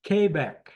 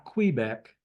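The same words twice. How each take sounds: First: Quebec firmly as KAY-beck; corrected pronunciation. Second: Quebec said as kwee-BECK; wrong pronunciation shown. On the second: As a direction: say "Quebec" with a KWI at the start. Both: Shown as a demonstration. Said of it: "not Quebec".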